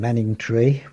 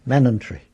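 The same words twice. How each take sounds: First: Said in the usual way. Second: "Manningtree" as "Mannuntree", G dropped, short ending; local Essex pronunciation. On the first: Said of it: "Manningtree would be Manningtree". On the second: Shown as a demonstration. Showing how locals said the town, local pronunciation. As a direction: say "Manningtree" with no G and a very short final vowel. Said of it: "Very short I on the end".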